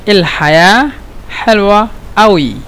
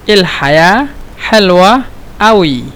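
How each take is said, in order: The two takes are said the same way.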